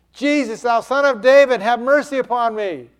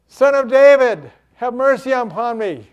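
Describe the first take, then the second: First: Loud, high cry to Jesus; urgent call over the crowd's noise; yelled plea. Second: High, loud cry for mercy; shouted plea, strongest at the start; desperate shout. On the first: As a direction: yell the whole plea in one run. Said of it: "he yelled out even louder". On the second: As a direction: cry out over a noisy crowd. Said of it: "He shouted out the more". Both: Acted.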